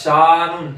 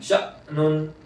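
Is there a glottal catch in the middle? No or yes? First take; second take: no; yes. First: The vowel flows on without a glottal catch. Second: The vowel is cut by a sharp glottal catch. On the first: The speaker calls it wrong. "ऐसे नहीं" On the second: The speaker calls it right. "हमजा में झटका"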